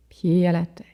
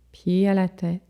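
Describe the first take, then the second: No difference in how they are said.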